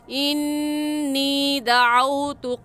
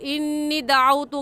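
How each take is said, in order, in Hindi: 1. 'nee' खिंची हुई है, नासिका की गूँज के साथ। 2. 'nee' छोटी है, नासिका की गूँज के बिना। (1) "नी को भी खींचेंगे और इन पर गुन्ना करेंगे" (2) "गलत है"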